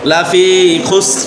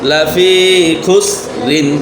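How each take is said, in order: First: The last word ends on a light bare 'r'. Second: The last word ends with a full 'rin' sound. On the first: The reading stops on this word. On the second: The reading continues without stopping.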